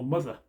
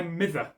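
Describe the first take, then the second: First: Said in the usual way. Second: "mither" with a short i for mother; "mither", Scots for mother. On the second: Shown as a demonstration. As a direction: read "mither" the old Scots way. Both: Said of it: "or mother".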